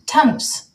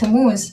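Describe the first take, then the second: First: The name ends with an s sound. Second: The name ends with a z sound. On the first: The speaker calls it wrong. "they cannot pronounce the letter Z" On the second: The speaker calls it right. "my name"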